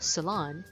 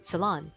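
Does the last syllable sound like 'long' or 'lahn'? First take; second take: lahn; lahn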